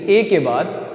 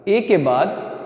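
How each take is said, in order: Both takes have the same delivery.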